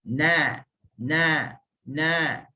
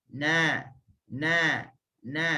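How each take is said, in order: No difference in how they are said.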